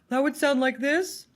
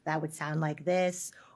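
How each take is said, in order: First: The voice is high-pitched but dark. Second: The voice is low-pitched but bright.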